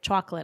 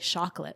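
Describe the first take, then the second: First: It begins with a clear 'ch' sound. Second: It begins without a clear 'ch' sound. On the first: The speaker calls it right. "instead of chocolate" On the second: The speaker calls it wrong. "I couldn't pronounce the, the ch"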